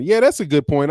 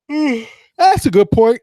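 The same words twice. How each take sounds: First: Said in the usual way. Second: Words stretched through a yawn. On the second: Real, not acted. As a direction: say it mid-yawn, slowly. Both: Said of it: "Excuse me for the yawn".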